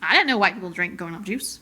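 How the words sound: It is said in a small child-like voice.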